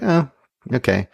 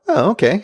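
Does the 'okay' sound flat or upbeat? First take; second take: flat; upbeat. First: The okay sounds flat and unimpressed. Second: The okay sounds lifted and pleasantly surprised. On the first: The ending was merely acceptable. "I would have been like" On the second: The ending was a pleasant surprise. "it was like a up okay"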